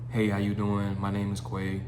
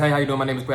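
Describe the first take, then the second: First: It is said quietly and flatly, like a robot. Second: It is said very fast and rushed. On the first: "You sound quiet" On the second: "you don't want to talk super fast"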